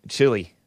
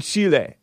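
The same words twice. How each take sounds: First: Said in the usual way. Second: Chile with two clear syllables, CHEE-leh; Spanish pronunciation. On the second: Shown as a demonstration. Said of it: "pronounces it, it all s-, in Spanish".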